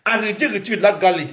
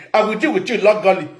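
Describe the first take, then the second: First: Said in the usual way. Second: Threat "I will deal with you legally" yelled out; shouted threat. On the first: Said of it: "repeated louder". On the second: Pretend. Threatening a rival in a shouted warning. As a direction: yell the threat at them.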